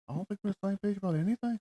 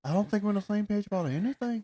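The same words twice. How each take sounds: First: Quick, higher put-on Irish lilt; hamming up an Irish accent for a laugh; mock Irish accent. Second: Lightly put-on Irish accent, higher; imitating an Irish reality star; mock Irish accent. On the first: A friend repeats Dempsey's line in a put-on Irish accent. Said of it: "What accent is this?". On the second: A friend hams up an Irish accent quoting Dempsey. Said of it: "that's that your accent?".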